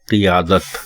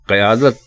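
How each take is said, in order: First: The first syllable has an i vowel. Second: The first syllable has an a vowel. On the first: The speaker calls it right. "अगला लफ्ज दुरुस्त लफ्ज है क़ियादत।" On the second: The speaker calls it wrong. "क़यादत गलत है"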